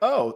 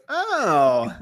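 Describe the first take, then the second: First: It is said at a normal pitch. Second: It is said at a higher pitch.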